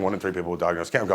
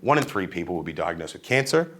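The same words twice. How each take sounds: First: It is said flatly, with little vocal variation. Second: It is said expressively, with a varied tone. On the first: The speaker calls it wrong. "I'm not saying" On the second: The speaker calls it right. "I'm using my tone. I'm using my body"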